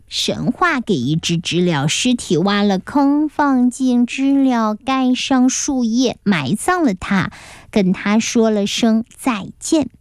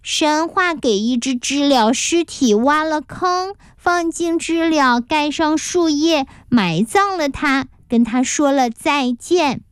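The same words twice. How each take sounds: First: Plain narrator's repeat, slow phrases; each word spaced out, slowly. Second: Staccato. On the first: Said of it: "同学们都重复起了这句话". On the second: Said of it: "有意放慢了语速， 一个字一个字地说". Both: A narrator's reading.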